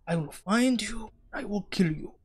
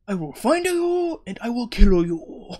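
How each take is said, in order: First: Higher, soft mock Asian accent. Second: Exaggerated mock Asian accent. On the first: Gamer vowing revenge on the game's killer, mock Asian accent. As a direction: threaten in a put-on Asian accent. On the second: Gamer repeating a revenge vow for laughs, hammed-up Asian accent. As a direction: ham up the threat in an Asian accent. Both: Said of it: "said it like I'm Asian".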